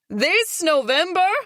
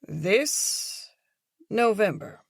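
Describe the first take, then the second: First: It is screamed at full volume. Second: It is said in a hushed, quiet voice.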